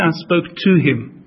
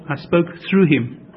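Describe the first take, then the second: First: "to" picked out as the word in question; stress on "to". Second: Slow, with "through" picked out; stress on "through". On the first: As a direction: lean on "to" in "spoke to him". Contrasts "to" with "through. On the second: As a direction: lean on "through" as the corrected word. Corrects "to" to "through. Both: Shown as a demonstration.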